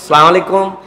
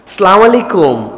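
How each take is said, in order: First: The greeting is run together with syllables dropped. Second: Every syllable of the greeting is pronounced clearly. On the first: The speaker calls it wrong. "এরকম করে সালাম দেয়" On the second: The speaker calls it right. "সালামের বিশুদ্ধ উচ্চারণটাও শিখে নাও"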